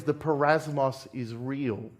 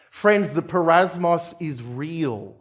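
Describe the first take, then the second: First: The refrain dropped much softer; the parasmos is real, said low and quiet; hushed refrain. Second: Slow, weighty preaching line; Friends, the parasmos is real, drawn out and firm; slow emphatic refrain. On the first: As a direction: let it fall to a grave, soft close. Sermon refrain, repeated softly. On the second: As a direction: lean on each word of the refrain, unhurried. Sermon refrain, first time. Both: Acted.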